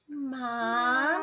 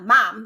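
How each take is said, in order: First: The word is said in a sweet, coaxing way. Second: The word is said in a plain, ordinary way. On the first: The child is flattering a parent to get something. "when they're trying to butter me up when they want something" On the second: An ordinary call for a parent. "it's not mom"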